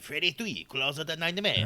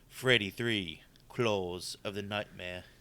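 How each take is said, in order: First: It is said in a French accent. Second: It is said in a plain accent.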